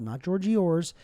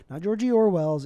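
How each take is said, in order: First: Georgie Orr's said as a fumbled wrong name, cut short; blurting out Georgie Orr's as a slip; botched name, Orr's instead of Orwell's. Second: Georgie Orwell's said in full as the fix; correcting to Georgie Orwell's; the right name, Orwell's; corrected name. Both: Shown as a demonstration.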